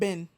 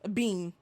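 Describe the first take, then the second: First: It sounds like 'Ben', American style. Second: It sounds like 'bean', British style.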